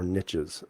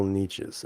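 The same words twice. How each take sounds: First: "niches" with a short i, like NITCH-iz. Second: "niches" with a long ee, like NEE-chiz. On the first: Offering chat the other reading, "niches" as NITCH-iz. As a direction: say "niches" to rhyme with riches. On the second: Reading chat aloud, trying "niches" as NEE-chiz. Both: Shown as a demonstration. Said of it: "niches or niches".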